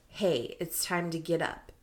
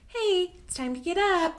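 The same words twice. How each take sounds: First: It is said in a plain, neutral voice. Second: It is said in a sweet, friendly voice.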